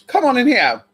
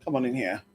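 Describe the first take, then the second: First: Higher, louder "Come on in here"; loud call. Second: Low, soft come on in here; quiet aside. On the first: Calling someone in, loud higher call. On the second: Calling someone in, low soft murmur. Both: Shown as a demonstration.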